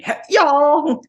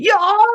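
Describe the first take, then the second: First: Very high, loud, drawn-out Southern "y'all". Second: Very high, loud, clipped "Y'all" like a karate shout; karate-yell y'all. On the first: Podcaster demoing a wild way to say "y'all", very high and loud. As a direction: belt out "y'all" like a Southern yell. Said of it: "you can say". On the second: Podcaster yelling "Y'all" like someone doing karate, very high and loud. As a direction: bark "Y'all" like a karate cry. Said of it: "Sounds like someone doing karate". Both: Shown as a demonstration.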